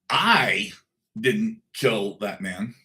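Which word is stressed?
I. The word "I" is stressed. Someone else did it, and the speaker may know who. "I didn't, but I might know who did"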